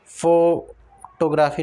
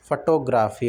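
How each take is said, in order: First: "photography" with long, punched "फो"; stress on FO. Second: "photography" as fuh-TO-gra-fi, short first syllable; stress on TO. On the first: Teacher shows the mistake, "photography" with heavy "फो". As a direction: wrongly hammer the first syllable of "photography". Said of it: "नहीं होता". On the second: Teacher corrects learners, "photography" stressed on second syllable. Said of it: "photography होता है". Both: Shown as a demonstration.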